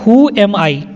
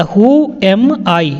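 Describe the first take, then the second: First: Said in the usual way. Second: "Who am I?" drawn out word by word; slow clear repetition. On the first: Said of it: "teacher repeats sentence". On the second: Shown as a demonstration. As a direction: say it slowly so learners follow. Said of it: "teacher repeats sentence slowly". (धीरे-धीरे साफ़ बोलना)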